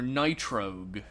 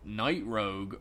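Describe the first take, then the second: First: The name is said as nitro plus gue. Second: The name is said as night plus rogue. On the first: It sounds like something fast, like a race car. "there's nothing nitro about him" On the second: He is a rogue of the night. "a creature of the night, Rogue makes a lot more sense"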